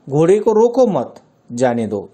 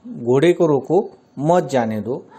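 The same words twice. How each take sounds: First: "घोड़े को रोको मत" in one run, a break, then "जाने दो"; pause after मत. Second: "घोड़े को रोको", a short break, then "मत जाने दो"; pause after रोको. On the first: Teacher showing how the moved comma flips meaning, pausing after मत. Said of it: "चिन्ह का स्थान बदल दिया जाए". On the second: Teacher showing students where the comma falls, pausing after रोको. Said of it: "अगर रोको इस स्थान पर हमने विराम लिया है". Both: Shown as a demonstration.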